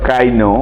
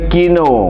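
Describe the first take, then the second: First: The first vowel sounds like 'eye'. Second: The first vowel sounds like 'ee'. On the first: "কিনো বা কাইনো" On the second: "কিনো বা কাইনো"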